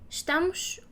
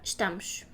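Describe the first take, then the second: First: A soft vowel is heard in the last syllable. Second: The last syllable's vowel is dropped entirely. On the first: "we can pronounce the U" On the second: "or not"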